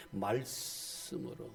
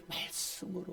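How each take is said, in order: First: Soft slow answer. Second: Breathy near-whisper; whispered answer. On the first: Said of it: "뭘로 깨끗하게 하느냐?". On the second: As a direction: let the word 말씀으로 fall away to a whisper. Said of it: "뭐예요?". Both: Shown as a demonstration.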